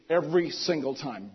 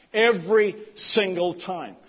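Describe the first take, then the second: First: Said in the usual way. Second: Every single time drawn out slowly, each word leaned on; emphatic slow. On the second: Acted. Emphatic repeat in sermon.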